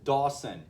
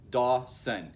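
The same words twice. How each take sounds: First: Said in the usual way. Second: "Dawson" broken into two separate beats; syllable by syllable. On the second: Shown as a demonstration. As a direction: split "Dawson" as Daw, pause, son. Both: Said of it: "two syllables".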